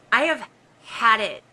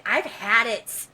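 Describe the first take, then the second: First: "have" spelled out and leaned on, firm and loud; stress on have. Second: Said in the usual way. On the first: Real, not acted. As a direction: punch the word "have" to insist.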